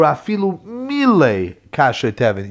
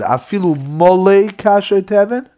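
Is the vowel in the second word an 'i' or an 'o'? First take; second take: i; o. First: The second word is said with an 'i' vowel. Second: The second word is said with an 'o' vowel. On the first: Someone filled it in on purpose. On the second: It is simply there full. "There's two ways to read this word"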